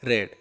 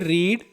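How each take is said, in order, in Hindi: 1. स्वर छोटी 'e' ध्वनि है। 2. स्वर लंबी 'ee' ध्वनि है। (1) "सेकंड फॉर्म और थर्ड फॉर्म में होता है रेड" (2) "फर्स्ट फॉर्म में रीड होता है"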